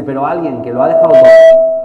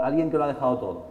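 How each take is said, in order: First: Much louder, forceful opening; impassioned loud declaration. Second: Said in the usual way. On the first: Retold or imitated. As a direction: proclaim it loudly to the room. Dean's impassioned defense. (declaración apasionada en voz muy alta)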